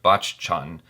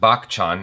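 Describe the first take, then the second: First: The name is said the newly suggested way. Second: The name is said the speaker's usual way. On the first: The speaker calls it right. "but Bachchan" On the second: The speaker calls it wrong. "as I've been saying it"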